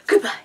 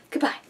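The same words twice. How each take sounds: First: High squeaky loud goodbye. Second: Said in the usual way. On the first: Pretend. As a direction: squeak it out cutely. Squeaky repeat.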